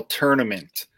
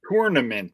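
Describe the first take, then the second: First: "tournament" said "turn-ament", soft and falling; tur like turning. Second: "tournament" said with a "tour" as in travel; tour spelling. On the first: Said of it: "like, you're turning your wheel". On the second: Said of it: "It's spelled like tour". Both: Shown as a demonstration.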